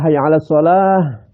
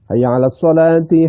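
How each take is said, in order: First: The last word ends with a stopped -ah. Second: The last word ends with a -ti syllable. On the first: The phrase ends with a stop. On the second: The phrase is joined to what follows.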